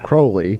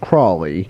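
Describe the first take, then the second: First: The name is said the local English way. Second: The name is said the usual American way. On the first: This is how the place is actually called. The speaker calls it right. "but it's" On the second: This is how people locally in America would say it. The speaker calls it wrong. "most people here would pronounce it"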